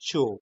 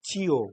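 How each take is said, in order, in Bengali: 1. এটা একটি সিলেবলে বলা হয়। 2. এটা দুটি আলাদা সিলেবলে বলা হয়।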